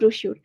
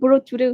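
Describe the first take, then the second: First: The middle consonant is an 'sh' sound. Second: The middle consonant is a 'ch' sound. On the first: The speaker calls it right. "এর উচ্চারণ হচ্ছে ব্রোশিউর।" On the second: The speaker calls it wrong. "অনেকে ব্রো চুরে উচ্চারণ করে।"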